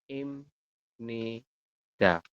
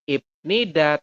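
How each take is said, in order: First: The first syllable ends with an m sound. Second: The first syllable ends with a p sound. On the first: The speaker calls it right. "Kalau dalam hangelnya kita coba tuliskan menjadi im nida" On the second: The speaker calls it wrong. "bukan ip nida"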